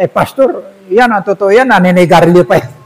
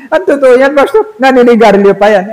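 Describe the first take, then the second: First: Said in the usual way. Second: Mocking laugh.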